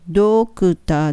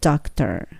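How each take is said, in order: First: The first vowel sounds like 'oh'. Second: The first vowel sounds like 'ah'. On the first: The speaker calls it wrong. "ドクターじゃなくて" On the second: The speaker calls it right. "どじゃなくてあに近いので"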